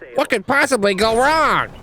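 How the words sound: It is said in a Bubsy impression voice.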